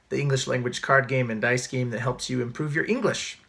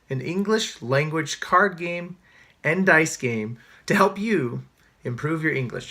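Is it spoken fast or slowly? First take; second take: fast; slowly. First: It is spoken very quickly. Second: It is spoken slowly.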